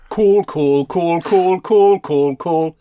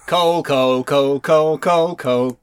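First: Louder, higher Durham chant, coal becoming "cool"; proper Durham accent. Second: Sung, rhythmic, evenly beaten repeats of COAL; sung chant. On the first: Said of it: "They'd sing it in a proper Durham accent". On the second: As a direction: chant COAL in the speaker's own accent. They'd sing it in a proper Durham accent. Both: Shown as a demonstration.

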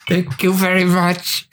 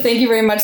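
First: Slow, higher, teeth clenched in fury; through clenched teeth. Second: Thanks forced through clenched teeth; a hint of grinding teeth, bitter thanks. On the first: Retold or imitated. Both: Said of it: "through clenched teeth".

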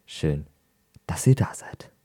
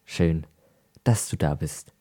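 First: Whispering. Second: Said in the usual way. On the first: Shown as a demonstration. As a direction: whisper it to the listeners. Same greeting whispered to all.

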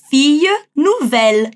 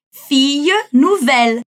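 First: "Fille" as a long i, "nouvelle" with a clear final L, slowly; clear L sounds. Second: Slow "Fille nouvelle", long ee in "Fille", crisp final L in "nouvelle"; clear L sounds. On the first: Teacher modelling "Fille" versus "nouvelle" for students, slowly and clearly. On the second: Teacher repeating "Fille nouvelle" for students to copy, slowly. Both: Shown as a demonstration. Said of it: "nouvelle a gente precisa pronunciar os L's".

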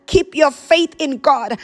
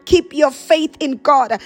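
Both takes have the same delivery.

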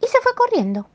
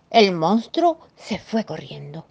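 First: Scampering off. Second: Said in the usual way. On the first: A narrator's reading. Monster dashes away.

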